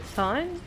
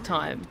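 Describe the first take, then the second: First: It starts with a soft, breathy 'th' sound. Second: It starts with a plain, crisp 't' sound. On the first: The speaker calls it wrong. "Like a kind of soft H" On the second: The speaker calls it right. "Time is pronounced like time"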